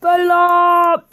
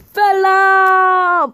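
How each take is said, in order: First: High, loud mock wrestler shout; Sheamus. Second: High, loud, drawn-out wrestler bellow; Sheamus. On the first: Slightly better twin kicks his rival, loud catchphrase shout. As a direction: punch out the catchphrase, held a little shorter. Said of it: "slightly better Sheamus". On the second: Pretend. Wrestler figure makes his entrance, long high mock shout. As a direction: belt out the catchphrase and hold it. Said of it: "here comes Sheamus, and he's all like".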